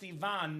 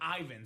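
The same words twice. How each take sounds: First: The name is said the Bulgarian way. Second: The name is said a non-Bulgarian way. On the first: The speaker calls it right. "Pronounced Ivan, ... So Bulgarians would call it Ivan" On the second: The speaker calls it wrong. "not Ivan"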